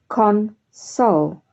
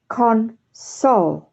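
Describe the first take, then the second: The two takes are said the same way.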